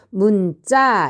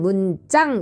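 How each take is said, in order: First: The second syllable ends in a plain vowel. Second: The second syllable ends with an ng sound. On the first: The speaker calls it right. "이렇게 읽으면 됩니다" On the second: The speaker calls it wrong. "이렇게 읽으면 안 되고"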